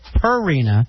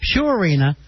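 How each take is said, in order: First: The first syllable sounds like purr. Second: The first syllable sounds like pure. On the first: The speaker calls it wrong. "He pronounces it Purina" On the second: The speaker calls it right. "pronounced Purina, like pure water"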